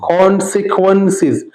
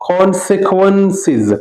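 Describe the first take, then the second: No difference in how they are said.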